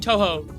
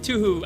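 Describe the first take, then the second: First: Both syllables are said with an 'oh' vowel. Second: Both syllables are said with an 'oo' vowel. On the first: The speaker calls it right. "that's the proper way to say it" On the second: The speaker calls it wrong. "I say Tuhu because of the Tuhu, like how you just wrote it"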